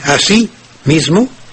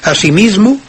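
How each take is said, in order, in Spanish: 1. Tiene dos acentos tónicos, en sí y en mis. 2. Tiene un solo acento tónico, en la sílaba mis. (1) "tiene dos acentos tónicos, uno en la i de así y el otro en la i de mismo" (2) "en una sola palabra tiene solamente un acento tónico"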